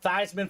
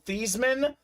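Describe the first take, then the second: First: The first part rhymes with Heisman. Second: The first part does not rhyme with Heisman. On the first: The name was changed to promote him for an award. "they had him change his name pronunciation to Theismann so they can promote Theismann for the Heisman" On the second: This is the family's original pronunciation. "His name was actually pronounced"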